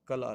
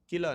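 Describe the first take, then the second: First: The first syllable has the vowel 'a'. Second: The first syllable has the vowel 'i'. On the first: The speaker calls it right. "ये कला लफ्ज़ होता है" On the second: The speaker calls it wrong. "किला नहीं होता लफ्ज़"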